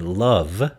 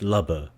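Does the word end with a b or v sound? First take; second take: v sound; b sound. First: The word ends with a v sound. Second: The word ends with a b sound and vowel. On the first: "instead of saying love" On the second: "b for v"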